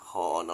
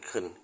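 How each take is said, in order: First: The syllable has a full, open vowel. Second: The syllable has a weak, reduced vowel. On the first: The speaker calls it wrong. "มองเห็นไหมคอนอกเคินเราพูดเลยเป็นเคิน" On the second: The speaker calls it right. "เราพูดเลยเป็นเคิน"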